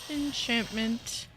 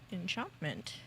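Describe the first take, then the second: First: The middle vowel sounds like 'ant'. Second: The middle vowel sounds like 'aunt'. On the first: The speaker calls it wrong. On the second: The speaker calls it right.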